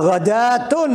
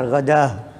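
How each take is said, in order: First: The ta marbuta is voiced as t with an ending. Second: The ta marbuta is voiced as a final h.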